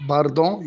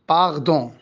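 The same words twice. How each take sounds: First: باردون with a tongue-tip r; rolled r. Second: باردون as "paghdon", r made in the throat; throaty r. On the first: Shown as a demonstration. Teacher giving the standard apology, باردون with rolled r. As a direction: say باردون with a clear Arabic ر. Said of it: "بدل ما يقول آسف باردون". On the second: Retold or imitated. Teacher imitating the French king, باردون with throaty r. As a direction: turn the r of باردون into غ. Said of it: "ملك فرنسا كان ألدغ".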